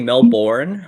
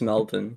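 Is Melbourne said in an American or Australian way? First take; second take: American; Australian. First: It is said with an American pronunciation. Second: It is said with an Australian pronunciation. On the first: The speaker calls it wrong. "you Americans say Melbourne" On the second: The speaker calls it right. "when it's Melbourne"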